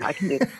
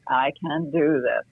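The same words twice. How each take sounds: First: It is said quickly, like a chugging train. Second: It is said very slowly.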